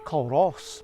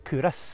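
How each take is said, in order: First: The name is said as 'Cul-ross', with an L. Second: The name is said as 'Coo-ris', without an L. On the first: The speaker calls it wrong. "I was calling it Culross" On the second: The speaker calls it right. "Cooris is the way to pronounce it correctly"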